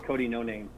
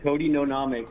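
First: Said in the usual way. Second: "Noname" said as no-NAH-may; sounded-out fake surname. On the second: Real, not acted. Repeating the prank caller's fake name, "Noname" as no-nah-may.

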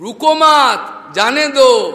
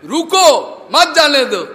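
First: Loud, slow "रुको मत", break, then "जाने दो"; misplaced pause. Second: Loud, high रुको, break, then मत जाने दो; pause after रुको. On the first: Acted. Stammering master shouting to the gatekeeper, misplaced pause after मत. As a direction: run रुको into मत, pausing before जाने दो. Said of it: "तोतली बानी था, शब्द थोड़ा इधर उधर". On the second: Shown as a demonstration. Preacher showing the intended order, shouted with a break after रुको. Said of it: "ये होगा नहीं".

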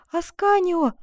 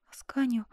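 First: High, loud, tender call of the name; reproachful joy. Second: Tender whispered name. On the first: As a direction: call the beloved's name, overjoyed. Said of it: "в голосе её звучала укоризна, радость". (с радостной укоризной, громче) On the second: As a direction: whisper it with reproach and joy. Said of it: "прошептала Коломба". (нежный шёпот) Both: A narrator's reading.

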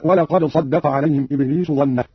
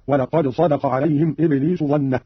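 First: Said in the usual way. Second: صدق as "sadaqa", the d not doubled; light single dal. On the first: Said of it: "قرأ قالون بتخفيف الدال". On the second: Shown as a demonstration. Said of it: "بتخفيف الدال على عدم التضعيف هكذا". (صدق بتخفيف الدال دون تضعيف)

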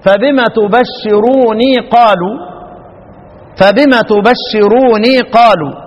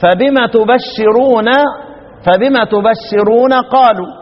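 First: Slow recitation فبما تبشروني with final ني; Nafi's reading. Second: Slow recitation تبشرون ending in plain نَ; reading of the rest. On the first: Teacher recites Nafi's reading, slow and measured. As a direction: stretch فبما تبشروني قالوا in tajweed. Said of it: "يقرأ الإمام نافع". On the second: Teacher recites the others' reading, slow and measured. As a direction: recite فبما تبشرون without the ي. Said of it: "والباقون يقرؤون إيه؟". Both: Shown as a demonstration.

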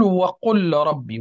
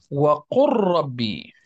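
First: "وقل ربي" with the lam of قل said clearly before the ra; wrong unassimilated way. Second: "وقل ربي" with the lam merged into a doubled ra, wequrrabi; slow, the lam of "وقل" swallowed into the ra; correct assimilation. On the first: Teacher demonstrating the wrong reading: "وقل ربي" with lam and ra kept apart. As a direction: separate "وقل" and "ربي" without merging. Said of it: "لا نقول". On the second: Teacher modelling correct recitation: "وقل ربي" with the lam assimilated. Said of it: "وإنما نقول". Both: Shown as a demonstration.

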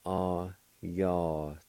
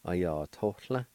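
First: Ayatollah drawn out very slowly; very slow demo. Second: Said in the usual way. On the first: Shown as a demonstration. Teacher slowing the word for learners. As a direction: stretch every syllable of Ayatollah. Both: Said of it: "It's pronounced like this".

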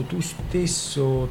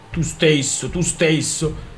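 First: Slow, faltering words; hesitant. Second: Angry mimicry. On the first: Acted. Daughter timidly answering her angry father, slow and hesitant. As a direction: let it stall out uncertainly. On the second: Father angrily echoing his daughter's words. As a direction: throw her words back at her.

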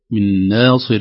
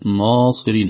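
First: ناصر with a thin first vowel; light nun. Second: ناصر with a darkened vowel; heavy ناصر. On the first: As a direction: keep ناصر unemphatic. (ترقيق ناصر) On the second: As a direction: thicken ناصر wrongly. (تفخيم ناصر) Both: Shown as a demonstration. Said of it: "ليست".

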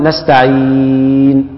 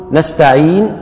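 First: نستعين with the ي of عين drawn out over four counts; four-count hold. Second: نستعين with the final ين held two counts, briefly; two-count hold. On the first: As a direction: stretch the vowel in نستعين for four beats, slow. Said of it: "مد أربع حركات بالطريقة دي". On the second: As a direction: stop on نستعين with a short two-beat stretch. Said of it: "نقول". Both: Shown as a demonstration.

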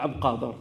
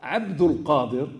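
First: Abd Qadir without the ul, quieter; wrong name. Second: Abdul Qadir slow, full ul; correct name. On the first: Teacher contrasting names: the clipped Abd Qadir. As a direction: drop the linking vowel in Abd Qadir. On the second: Teacher contrasting names: Abdul Qadir said properly and slowly. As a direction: give Abdul Qadir its whole middle. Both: Shown as a demonstration. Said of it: "Regardez la différence entre".

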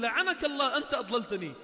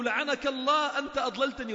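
First: Loud angry curse thrown back; cursing reply. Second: Loud, higher, angry curse at a companion; cursing accusation. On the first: The second damned man cursing back at the first, loud and angry. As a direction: hurl the same blame right back. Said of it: "والثاني يقول". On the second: One damned man cursing his companion in Hell, loud and angry. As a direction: spit the blame at him. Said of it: "هذا يقول له". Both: Acted.

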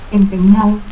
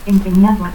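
First: Empeñao without its D; dropped D. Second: Said in the usual way. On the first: Shown as a demonstration. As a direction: end in "-ao": Empeñao. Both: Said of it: "pérdida de la D intervocal".

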